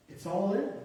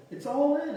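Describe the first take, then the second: First: Said in the usual way. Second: Emphatic repeat. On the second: Real, not acted.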